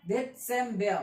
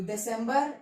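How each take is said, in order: First: दिसंबर as "det-sem-bea", not as written; measured German model of दिसंबर, ending in "bea"; German pronunciation. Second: Said in the usual way. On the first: Shown as a demonstration. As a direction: say दिसंबर with a TS and silent R. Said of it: "पर pronounce दिसंबर करते हैं". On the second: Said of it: "दिसंबर लिखते हैं पर".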